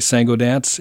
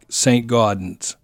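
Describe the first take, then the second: First: The name is said with a French accent. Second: The name is said with an English accent.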